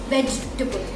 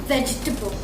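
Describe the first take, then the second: The two takes are said the same way.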